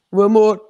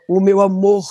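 First: "o amor" Portuguese style, ending cut short and a little louder; Portuguese pronunciation demo. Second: "o meu amor" in Portuguese style, last syllable clipped short; Portuguese pronunciation demo. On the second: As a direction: say "o meu amor" cutting the final syllable like a fadista. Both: Shown as a demonstration. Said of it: "eles abreviam a última nota e a última sílaba".

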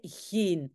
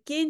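First: Geen with a throaty Dutch g; correct Dutch geen. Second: Geen said with a hard k-like g; the general's geen with a k sound; accented geen. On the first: Teacher corrects the general's geen with a proper Dutch g. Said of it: "c'est en fait, c'est geen". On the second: Teacher quotes the general's Spanish-accented geen. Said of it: "vous voyez, le geen". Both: Shown as a demonstration.

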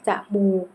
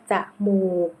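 First: Said in the usual way. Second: จมูก split as จะ-หมูก; syllable-by-syllable reading. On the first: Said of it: "คำว่าจมูก". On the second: Shown as a demonstration. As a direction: sound out จมูก as จะ, then หมูก. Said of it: "อ่านว่าจมูก".

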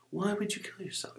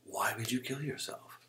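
First: Much higher, incredulous repeat; disgusted disbelief. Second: Imitating a disgusted doctor, slightly raised; disgusted question. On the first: Retold or imitated. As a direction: imitate a disgusted doctor, pitch shooting up. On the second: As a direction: ask it with contained disgust. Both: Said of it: "just disgusted, man".

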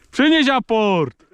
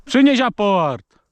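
First: Said in the usual way. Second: "Przynieś aport." with a small stumble on "Przynieś", said slow and high; a stammered "Przynieś aport." to the dog; slight stammer. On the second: Real, not acted. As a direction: trip briefly over "Przynieś" in "Przynieś aport.". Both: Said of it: "Tak się zająknąłem trochę".

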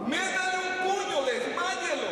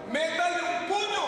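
First: Barked higher and louder; mock shout. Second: Mock shout. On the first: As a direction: shout the order at the lifeguard. (grito fingido, más alto y fuerte) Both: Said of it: "Saben qué le dicen al salvavidas".

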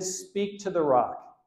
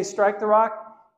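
First: "Speak to the rock" slow and steady; slow emphasis. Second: "Strike the rock" slow, high and louder; slow emphasis. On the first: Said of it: "He said". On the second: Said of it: "Did he say". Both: Shown as a demonstration.

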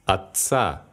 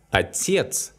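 First: Отца stressed on the final ца; stress on ending. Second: Отец stressed on its second syllable, тец. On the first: Teacher showing learners the stress change, отца stressed on ца. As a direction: land the stress on the last а in отца. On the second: Teacher showing learners how stress changes, Отец stressed on тец. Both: Shown as a demonstration. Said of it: "the noun changes the stress".

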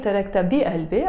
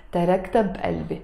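First: تركت بقلبي as "tarakt abi-albe", ending تركت with no vowel; تركت بقلبي with the final vowel of تركت dropped; wrong pronunciation. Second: تركت بقلبي as "tarakta balbe", with a vowel after تركت; تركت بقلبي linked smoothly as "tarakta-b-albe"; correct pronunciation. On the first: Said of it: "I'm not saying". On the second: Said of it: "nicer if you pronounce it". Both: Shown as a demonstration.

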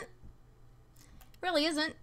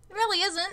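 First: Weary slow murmur; slow, quiet drawn-out repeat. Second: Said in the usual way. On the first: Real, not acted. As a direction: drag it out, slow and softer. Repeating her complaint to chat.

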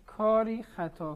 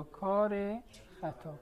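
First: Slow "کاری خطا", long ee ending on کاری. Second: "کار خطا" linked by a short e, kar-e khata; "کار خطا" with ezafe. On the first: Teacher contrasting two readings for the class, "کاری" ending in long ee. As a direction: say "کاری خطا" with a clear ee after kar. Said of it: "اگه کاری خطا رو کار خطا بخونیم". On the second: Teacher contrasting two readings for the class, "کار" with short ezafe e. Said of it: "کار خطا بخونیم". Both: Shown as a demonstration.

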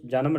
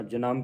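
First: ਜਨਮ as everyday "JA-nam"; mispronounced ਜਨਮ. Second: ਜਨਮ as "ja-namm", weight on second syllable; ਜਨਮ with tippi. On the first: Teacher showing the reading to avoid, ਜਨਮ as "JA-nam". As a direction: give ਜਨਮ a plain single n and short ending. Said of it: "ਜਨਮ ਨਹੀਂ ਪੜ੍ਹਨਾ". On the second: Teacher modelling the tippi, ਜਨਮ as "ja-NAMM". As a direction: lengthen the nasal end of ਜਨਮ, "janamm". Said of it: "ਜੇ ਨੰਨੇ ਉੱਤੇ ਟਿੱਪੀ ਲੱਗੀ". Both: Shown as a demonstration.

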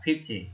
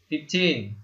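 First: Fifty with the first syllable fif stressed, dropping after it; fifty, hit fif. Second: Put-on fifteen slow, with the second syllable teen stressed; fifteen, lean on teen. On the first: Teacher contrasts fifty with fifteen, stress on fif. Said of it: "trọng âm nó lại nhấn vào ... âm đầu tiên". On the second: Teacher contrasts fifteen with fifty, stress on teen. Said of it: "trọng âm nó nhấn vào từ tin". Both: Shown as a demonstration.

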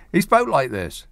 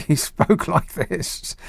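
First: Said in the usual way. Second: Slow, drawn-out put-on voice, higher. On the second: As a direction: drag the words out in a mock bloke's voice.

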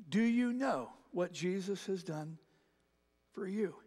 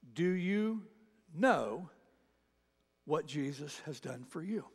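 Both takes have the same delivery.

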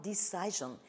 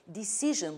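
First: Decision with long eye sound, dih-SIGH-zhun; wrong decision. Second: Decision with short i, dih-SIZH-un; correct decision. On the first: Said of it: "but not decision". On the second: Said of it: "pay attention to its pronunciation". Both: Shown as a demonstration.

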